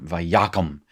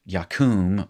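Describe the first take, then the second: First: Vayakum with stress on YA, short last syllable; accent moved forward. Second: Yakum with stress on a long KUM; final-syllable stress. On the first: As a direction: say vayakum as va-YA-kum. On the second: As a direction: say yakum as ya-KOOM. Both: Shown as a demonstration. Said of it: "the accent is moved forward".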